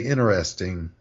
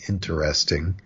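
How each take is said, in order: First: The T in the middle is left out. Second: The T in the middle is clearly pronounced. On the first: "you skip the T altogether, that sounds kind of lazy and sloppy" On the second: "pronounce that T interesting. It sounds like an overcorrection to me"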